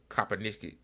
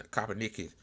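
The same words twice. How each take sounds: The two takes are said the same way.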